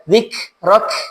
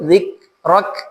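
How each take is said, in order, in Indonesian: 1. K di akhir mengeluarkan hembusan udara yang kuat. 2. K di akhir hanya mengeluarkan sedikit udara. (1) "Tidak dibaca zikrak" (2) "cukup zikrak"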